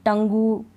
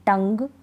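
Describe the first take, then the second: First: टंगू ending in a long "goo"; UE wrongly sounded. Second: टंग ending on G, no extra vowel; final hard G. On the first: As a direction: add a drawn-out "oo" to the G in टंगू. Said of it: "गु नहीं पढ़ रहे". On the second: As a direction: say टंग as one syllable. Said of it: "ग पढ़ रहे हैं". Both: Shown as a demonstration.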